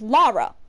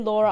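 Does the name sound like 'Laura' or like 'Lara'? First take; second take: Lara; Laura. First: The name sounds like 'Lara'. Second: The name sounds like 'Laura'. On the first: The speaker calls it right. "there is not a U because her name is Lara" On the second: The speaker calls it wrong. "Don't say Laura, I have to kill you if you do"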